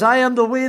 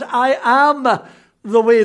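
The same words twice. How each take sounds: First: The words 'I am' carry no special emphasis. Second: The words 'I am' are strongly emphasized.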